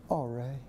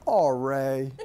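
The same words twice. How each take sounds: First: Much softer, gentle sigh of the name; even gentler than the dad, almost hushed; softer mom. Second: Mild, patient sigh of a name; a big dad going easy on his son; gentle dad. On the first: Imitating the mother seeing her son's mess, softer and gentle. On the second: Imitating the dad finding his son making havoc, mildly gentle. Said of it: "And he goes like this". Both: Retold or imitated.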